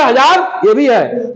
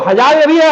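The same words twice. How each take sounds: First: हजार ये भी है, slowed right down with हजार leaned on; teacher repeating it slowly so kids follow. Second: Teacher pointing, भी stressed; emphatic first pass. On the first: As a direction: spell it out slowly, stressing हजार. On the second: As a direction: press hard on भी to point it out. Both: Shown as a demonstration. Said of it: "अब देखो".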